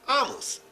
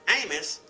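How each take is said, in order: First: The first vowel is a short A. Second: The first vowel is a long A. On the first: "with a short A" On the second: This is the usual English pronunciation. "this name is pronounced with a long A"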